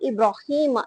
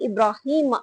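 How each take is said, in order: No difference in how they are said.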